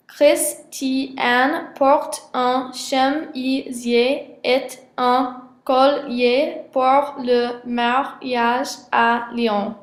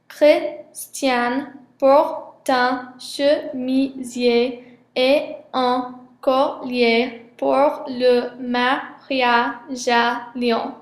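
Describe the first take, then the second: First: Very slow French split English-style, closed syllables; American-style syllabification. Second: Very slow French accent, open syllables; French syllabification. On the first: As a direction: break French into English syllables, consonants closing each one. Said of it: "avec l'accent américain et l'intonation anglaise". (découpage syllabique à l'anglaise, très lent) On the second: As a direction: end each syllable on its vowel, French-style. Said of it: "avec l'accent et l'intonation français". (découpage syllabique à la française, très lent) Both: Shown as a demonstration.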